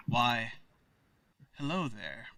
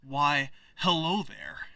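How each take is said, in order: First: Low, soft suave greeting; low-pitched, hushed in-character hello; rejected character voice. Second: A lightly voiced, self-presenting hello; second-try character voice. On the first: Acted. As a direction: quietly try out a smooth, low greeter's voice. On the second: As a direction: try a mild in-character greeting at normal pitch. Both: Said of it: "that's not the voice".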